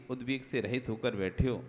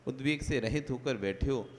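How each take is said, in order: Both takes have the same delivery.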